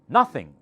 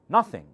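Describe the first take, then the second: No difference in how they are said.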